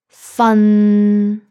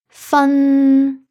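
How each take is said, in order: First: The pitch is level and mid. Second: The pitch is level and high. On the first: "the third tone" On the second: "the first tone"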